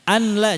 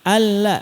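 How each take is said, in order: First: The n is pronounced before the l. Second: The n disappears and merges into a doubled l. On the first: "nun bertemu lam" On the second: "jadi alla, gak ada nun"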